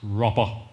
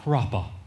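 First: The first vowel sounds like 'crop'. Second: The same.

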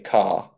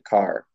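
First: British accent, with the final R dropped. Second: Irish accent, with the final R pronounced.

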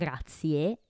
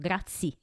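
First: It is said the Italian way, with final E. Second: It is said English-style, dropping the final E.

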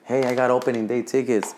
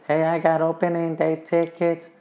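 First: It is said in the speaker's ordinary voice. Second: It is said in a put-on imitating voice.

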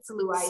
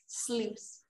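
First: The vowel sounds like the one in 'ice'. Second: The vowel sounds like the one in 'juice'. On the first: The speaker calls it wrong. "it said ice. Ice was in the word" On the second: The speaker calls it right. "you said it right!"

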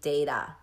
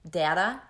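First: The first vowel is a long A sound. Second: The first vowel is a short A sound. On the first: "Long A is going to be data" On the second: "short A is data"

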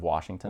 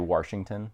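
First: It is said the standard way, without r. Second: It is said Minnesota-style, like 'Warshington'.

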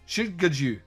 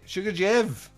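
First: The name ends with a 'joo' sound. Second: The name ends with an 'ev' sound. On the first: The speaker calls it wrong. "there's no way to say this without sounding anti-Semitic" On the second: The speaker calls it right. "that sounds better and not as risky as what I had said"

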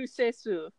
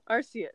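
First: The name is said with Japanese-style syllables. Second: The name is said with English-style sounds.

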